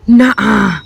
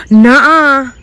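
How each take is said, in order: First: Said in the usual way. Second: Gasp, then a much higher, louder nuh-uh; the realisation hits all at once; gasped disbelief. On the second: Real, not acted. Disbelief at finding potatoes.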